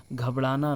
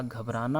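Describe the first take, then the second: First: घबराना with L for R; L sound inside घबराना; incorrect pronunciation. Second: घबराना with a clear R; tapped R inside घबराना; correct pronunciation. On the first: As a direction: say घबराना as "ghablana". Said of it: "नहीं होता". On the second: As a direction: say घबराना as "ghabrana". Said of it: "घबराना होता है". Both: Shown as a demonstration.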